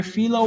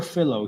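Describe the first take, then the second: First: Philo as FEE-loh, long ee; first pronunciation guess. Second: Philo as FILL-oh, short i; second pronunciation guess. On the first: Unsure streamer trying a chatter's name, Philo as FEE-loh. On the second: Unsure streamer offering another reading, Philo as FILL-oh. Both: Shown as a demonstration. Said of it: "how to pronounce the name".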